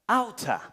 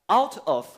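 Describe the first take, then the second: First: The two words blend into one word. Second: The two words are said separately. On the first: "pronounced the two words as if they were one word" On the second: "word by word"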